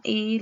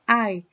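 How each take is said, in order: First: "I" said as Spanish ee; the Latin letter "I", pronounced ee. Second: "I" said as eye, a gliding vowel; English "I", pronounced ai; English pronoun sound. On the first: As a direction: say "I" like the vowel in "see". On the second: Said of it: "pero se pronuncia I". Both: Shown as a demonstration.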